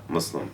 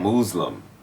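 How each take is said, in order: First: The first syllable sounds like muz. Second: The first syllable sounds like mooz.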